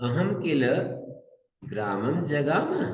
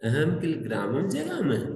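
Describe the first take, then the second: First: It is said as a plain, flat statement. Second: It is said with a surprised, questioning tone. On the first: The speaker reports going to the village. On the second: The speaker wonders whether they really went to the village.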